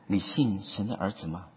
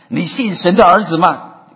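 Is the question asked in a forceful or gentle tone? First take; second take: gentle; forceful. First: The question is asked softly and gently. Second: The question is asked forcefully, like a sermon. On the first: The question is a kind, personal invitation. The speaker calls it right. "可能是很温柔的" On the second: The question is a public challenge from a pulpit. The speaker calls it wrong. "不是咱们布道的人在上面，我想肯定不这样说的"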